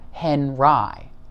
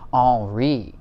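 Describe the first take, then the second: First: The name is pronounced the English way. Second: The name is pronounced the French way. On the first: The speaker calls it right. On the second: The speaker calls it wrong. "pronounce this in a French manner"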